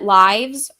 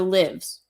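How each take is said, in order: First: The vowel is long, rhyming with 'hives'. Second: The vowel is short, rhyming with 'gives'. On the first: It refers to life stories. "So like life" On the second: It refers to the act of living. "or the living, like we live"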